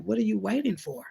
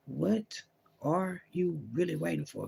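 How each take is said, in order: First: Said in the usual way. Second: Hushed, slowed God voice asking again; a hint of God pressing softly; voicing God, quieter and slow. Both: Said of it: "God's like".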